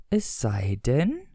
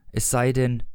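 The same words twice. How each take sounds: First: "Es sei denn" very slow, rising on "denn"; questioning echo. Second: Said in the usual way. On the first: A narrator's reading. Questioning echo of previous line. („Es sei denn“ gedehnt fragend, „denn“ steigend)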